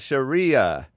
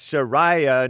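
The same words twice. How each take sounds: First: The middle syllable sounds like 'ree', not 'rye'. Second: The middle syllable sounds like 'rye', as in ride. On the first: The speaker calls it wrong. "not Sharia" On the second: The speaker calls it right. "it's Sharia, not Sharia. ... Shari, as in ride"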